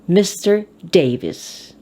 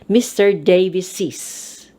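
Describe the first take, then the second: First: The name ends without any added syllable. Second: The name ends with an added extra syllable. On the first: "The popular one is just an apostrophe" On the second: "You have to read the extra syllable"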